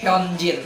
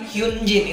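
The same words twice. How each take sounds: First: The name is pronounced the Korean way. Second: The name is pronounced as the romanized spelling reads. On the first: The speaker calls it right. "dibaca Koreanya itu Hyunjin" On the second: The speaker calls it wrong. "bukan Hyunjin"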